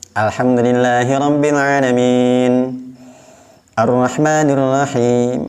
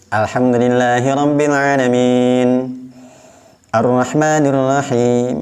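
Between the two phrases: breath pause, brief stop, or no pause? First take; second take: breath pause; breath pause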